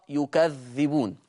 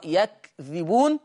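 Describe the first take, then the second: First: يكذبون said as yukadhdhibūn with u on ya, open kaf and a doubled dhal; يكذبون recited slowly with a stressed double dhal; Warsh reading. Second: يكذبون said as yakdhibūn with a silent kaf and no doubling; يكذبون recited slowly with an open ya and a light dhal; Hafs reading. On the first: Teacher contrasting Warsh with Hafs, slow careful recitation. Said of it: "ورش يقرأ". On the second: Teacher giving the Hafs reading, slow careful recitation. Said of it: "حفص يقرأ". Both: Shown as a demonstration.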